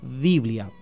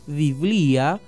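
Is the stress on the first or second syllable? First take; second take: first; second. First: Two syllables, stress on the first syllable. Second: Three syllables, stress on the second syllable. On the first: "la palabra castellana ... es bisílaba y grave" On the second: "el griego biblia ... con el acento y la tilde en la i de blia ... trisílaba"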